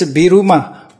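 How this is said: It is said as three syllables, Bi-ru-ma. "In Japanese"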